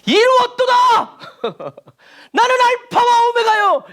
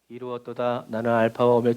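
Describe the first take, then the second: First: It is read dramatically with lively energy. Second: It is read flatly like a machine.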